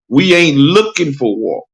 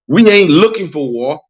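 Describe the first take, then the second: First: The phrase is spoken more slowly. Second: The phrase is spoken at a normal pace.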